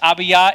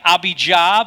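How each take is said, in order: First: The middle consonant is a Y sound. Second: The middle consonant is a J sound. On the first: The speaker calls it right. "This is how you pronounce the priestly division" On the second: The speaker calls it wrong. "It looks like Abijah, but there are no J's in Hebrew or Greek"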